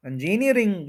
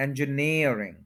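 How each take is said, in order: First: इंजीनियरिंग as "in-JEE-ni-ering"; wrong stress. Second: इंजीनियरिंग as "en-juh-NEER-ing"; stress on NEER. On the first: Teacher showing what is wrong, in-JEE-ni-ering for इंजीनियरिंग. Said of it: "जो हम कहते हैं ये गलत है". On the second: Teacher modelling the correction, en-juh-NEER-ing for इंजीनियरिंग. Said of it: "नियर पे stress है". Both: Shown as a demonstration.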